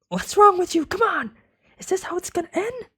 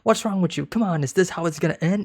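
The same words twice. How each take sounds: First: It is said in a high-pitched voice. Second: It is said in a normal-pitched voice.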